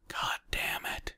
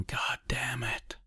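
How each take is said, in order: First: Soft, near-whispered aside; muttered curse. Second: Mock yell, pitched up but held soft; a yell kept small, higher and quieter; understated narrated outburst; muted yell. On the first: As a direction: curse under the breath. Exasperated interjection within his thoughts. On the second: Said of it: "Lindstrom yelling". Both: A narrator's reading.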